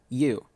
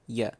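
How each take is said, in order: First: The word has a full, clear vowel. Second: The word has a weak, reduced vowel.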